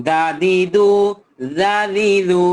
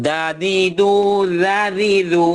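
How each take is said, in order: The two takes are said the same way.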